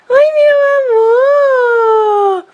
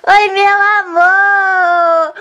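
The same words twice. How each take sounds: First: Much higher, slow, voice breaking into tears; tearful pet talk. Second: Pet talk. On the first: Saying goodbye to the dog she must give away, tearful high coo. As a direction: coo to the dog while starting to cry. Greeting dog, about to cry. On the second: Greeting her beloved pitbull, high slow cooing baby talk. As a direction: coo it slowly up high. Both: Real, not acted.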